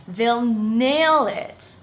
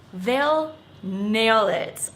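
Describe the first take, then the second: First: "They'll nail it" very slow and louder; slow clear repeat-after-me; slow model phrase. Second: "They'll nail it" said slowly; deliberate slow quote. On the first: Shown as a demonstration. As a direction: say each word slowly for repeating. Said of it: "Let me hear you say it". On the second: Retold or imitated. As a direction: spell it out slowly. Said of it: "I love this phrase".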